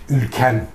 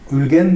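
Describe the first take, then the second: First: The middle consonant is a hard k sound. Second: The middle consonant is a soft g sound. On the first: "Orta Asya'da şeyler sert" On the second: This is the Anatolian form. "yumuşatılmış olarak Anadolu'da"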